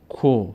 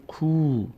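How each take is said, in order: First: "کو" said as a short ko; short vowel. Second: "کو" said as a long koo; long vowel. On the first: Teacher repeating kaf alone, short "کو" as ko. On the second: Teacher showing kaf with vav, long "کو" as koo. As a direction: hold the oo in "کو". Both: Shown as a demonstration. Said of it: "صدای کشیدهٔ او".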